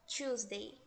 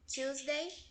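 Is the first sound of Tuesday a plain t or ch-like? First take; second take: ch-like; plain t. First: It starts with a stronger, ch-like sound. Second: It starts with a plain, soft t sound.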